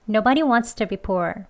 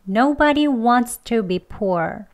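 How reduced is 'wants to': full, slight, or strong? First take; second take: slight; full. First: Wants to is said slightly weaker. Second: Wants to is said slowly and fully. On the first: "조금 약하게 합니다" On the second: "천천히 두 번 해볼게요"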